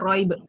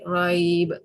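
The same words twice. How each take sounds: First: The vowel before the final consonant is cut short. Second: The vowel before the final consonant is held long. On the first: The speaker calls it wrong. "Kalau pendek" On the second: The speaker calls it right. "dibaca panjang agak mudah nak sebut"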